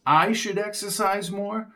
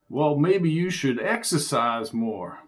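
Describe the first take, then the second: First: High, disbelieving question; incredulous echo. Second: Said in the usual way. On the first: Acted. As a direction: repeat it in disbelief. Jones echoes in disbelief.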